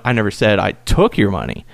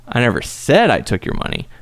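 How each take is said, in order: First: "took" hit hard, dropping after; stress on took. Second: "said" leaned on, falling after it; stress on said. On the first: Demo for co-host: each word stressed, here "took". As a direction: lean on "took" as the point. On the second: Voice actor demo to co-host, stress on "said". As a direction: punch the word "said" to deny saying it. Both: Shown as a demonstration. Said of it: "put emphasis on each different word".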